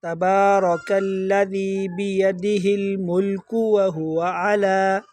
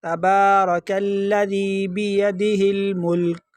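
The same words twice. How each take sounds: First: الملک runs on as "mulku wahuwa" in slow chant; continuing without stop. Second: Slow chant ending الملک on a vowelless k; stopping on sakin. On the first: Teacher showing no pause, chanted "mulku" into وہو. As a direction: recite through الملک, giving its k a short u. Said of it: "وقف نہیں کرنا چاہتے تو کاف پر پیش". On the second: Teacher showing the pause, chanted stop on الملک. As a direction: recite and halt at الملک, "mulk". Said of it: "تو یہاں پر کاف پر ساکن پڑھیں گے". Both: Shown as a demonstration.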